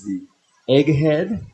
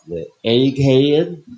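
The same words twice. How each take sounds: First: It is said in a plain accent. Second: It is said in a Southern accent.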